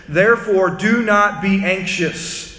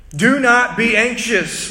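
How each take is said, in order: First: Slow, weighty reading of scripture. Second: Slow and louder, stress on "not"; slow emphatic repeat. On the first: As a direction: read it slowly, each word weighed. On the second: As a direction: press hard on "not". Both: Retold or imitated. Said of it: "Listen to what Jesus says".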